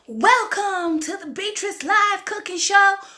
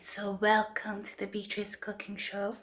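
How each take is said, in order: First: It is said with lively, high energy. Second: It is said with plain, low energy.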